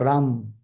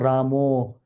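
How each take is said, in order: First: The name ends on the 'm' sound. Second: The name ends in an 'o' vowel. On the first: "Not Ram" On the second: "not Ramo"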